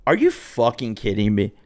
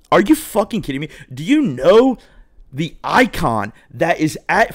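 First: Said in the usual way. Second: High, incredulous outrage; mock-furious at being turned away; outraged disbelief. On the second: Rejected guest to hostess, high outraged disbelief.

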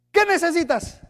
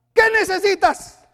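First: Said in the usual way. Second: Emphatic. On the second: Acted.

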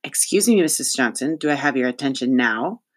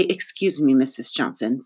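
First: Parroting politeness. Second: Prim demonstration of "Excuse me"; mildly instructing, showing the polite form; model politeness. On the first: Acted. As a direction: dutifully echo the formula with a pointed edge. Cass parrots the principal's formula back. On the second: Shown as a demonstration. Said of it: "you should say".

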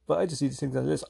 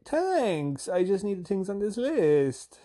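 First: Said in the usual way. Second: High, slow singsong; singsong reply. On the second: Retold or imitated. Customer answering the flirting shop lady, in singsong. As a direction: sing it back sweetly, stretching the words. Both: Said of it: "I have to sing it back to 'em".

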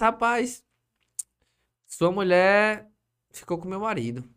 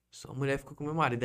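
First: Slow, louder, higher, every word dragged out; dramatic accusation. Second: Said in the usual way. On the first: Retold or imitated. Wife of the other man telling him the news, slow and loud. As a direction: spell out the betrayal slowly and loudly. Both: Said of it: "Ela disse".

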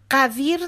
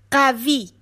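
First: قویر said with an extra r; mispronounced child word. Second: قوی said without the r; correct pronunciation. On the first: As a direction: say قویر as the child's wrong form. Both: Shown as a demonstration. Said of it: "قویر نه، قوی".

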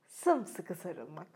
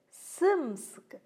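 First: Sımsıkı sarılmak said softer, lower and slow; sımsıkı sarılmak yumuşak ve yavaş; tender. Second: Sımsıkı stressed higher with a falling tune; sımsıkı vurgulu ve yüksek; emphatic. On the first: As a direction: linger lovingly on sımsıkı sarılmak. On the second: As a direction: lean into sımsıkı firmly. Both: A narrator's reading. Contrasted repetition of hug word.

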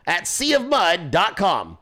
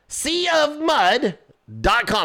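First: Said in the usual way. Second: "Sea of mud" sung out high and slow, then "dot com" dropped back; drawn-out repeat. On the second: Shown as a demonstration. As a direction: stretch "Sea of mud" way up like a jingle.

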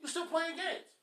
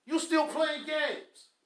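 First: Said in the usual way. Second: "You still playing games" drawn out slow; scolding a husband, slow and pointed; slow emphasis. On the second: Shown as a demonstration. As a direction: lean on every word, slowly.

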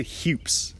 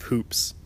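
First: Hoops said as "hyoops"; accented hoops. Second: Said in the usual way. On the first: Shown as a demonstration. Showing how he says the word, hoops as "hyoops". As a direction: put a y sound after the h in hoops. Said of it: "I just say hoops instead of hoops". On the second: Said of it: "instead of hoops".

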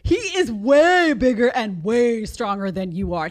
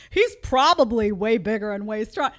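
First: "He is way bigger" with "is" hit firmly, slower and louder; stress on is. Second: Said in the usual way. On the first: Shown as a demonstration. Correcting her past self, firm slow stress on is. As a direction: land "is" and "way" hard, no hedging. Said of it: "Take that probably and sit it on a bench". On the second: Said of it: "Do you hear the, the language?".

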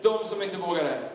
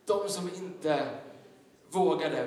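First: Stated firmly as a sermon point. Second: Much slower, with a pause before "vågade"; slow dramatic repeat. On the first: Preacher announcing point one, firm. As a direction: announce the point, each word weighted. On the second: Preacher repeating point one to the congregation, slowly and weighted. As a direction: let "De som inte" hang, then drop "vågade". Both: Shown as a demonstration. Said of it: "Punkt nummer ett".

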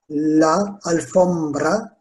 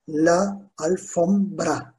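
First: Said in the usual way. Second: "La alfombra" slowly, piece by piece; syllable by syllable. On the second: Shown as a demonstration. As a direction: separate each syllable of "La alfombra" for learners. Teacher breaks the word into syllables. ("La alfombra" sözünü yavaşça hecele)

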